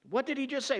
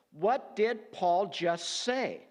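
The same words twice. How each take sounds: First: "What did he just say" asked higher and urgent; pressing the question. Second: "what did Paul just say" drawn out slowly, each word weighed; slow rhetorical question. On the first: Teacher repeating the question to his class, pitched higher. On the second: Teacher posing the key question to students, slow and deliberate. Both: Shown as a demonstration. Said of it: "The question is".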